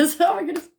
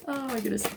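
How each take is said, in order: First: Loud high laugh into oh my goodness; laughing exclamation. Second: Said in the usual way. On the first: Real, not acted. To viewers about the long wait, laughing loudly. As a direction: burst out laughing at yourself.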